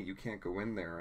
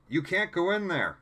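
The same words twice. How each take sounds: First: It is said at normal, softer volume. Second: It is said louder.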